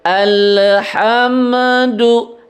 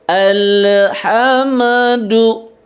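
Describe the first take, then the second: No difference in how they are said.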